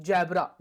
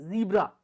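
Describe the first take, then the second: First: ज़ेब्रा said with an open e, as in Hindi habit; wrong Indian pronunciation. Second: ज़ीब्रा said with a long ee, as in English; correct English pronunciation. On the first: Teacher shows students the wrong Indian way to say ज़ेब्रा. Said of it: "ज़ेब्रा नहीं होता". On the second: Teacher gives students the correct English ज़ीब्रा. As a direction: say ज़ीब्रा with a clear long ee sound. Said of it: "ज़ेब्रा नहीं होता, ज़ीब्रा". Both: Shown as a demonstration.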